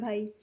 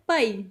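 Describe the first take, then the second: First: The word is said softly and politely. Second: The word is said with more force. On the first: "बिल्कुल polite वे में बोला जा रहा है" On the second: "थोड़ा ज़ोर से बोला जा रहा है"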